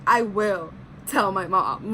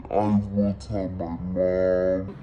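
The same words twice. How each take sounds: First: Said in the usual way. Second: Very low, slow, dragged-out mock voice; a kid threatening to tell mom, pitched way down; mock deep childish threat. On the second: Telling the ex who asked for a kiss, in a hammed-up low voice. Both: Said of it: "That's what I said to him".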